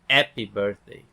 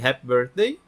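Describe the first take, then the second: First: The H at the start is left silent. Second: The H at the start is breathed out. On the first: "Em francês o H é mudo" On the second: "Em vez de"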